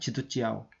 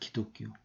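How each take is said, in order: First: It is read with Mandarin sounds: ji-du-jiao. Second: It is read with Korean sounds: gi-dok-gyo. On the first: "중국식으로 하면은" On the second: "우리식으로 하면은"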